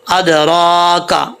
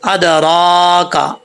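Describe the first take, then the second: Both takes have the same delivery.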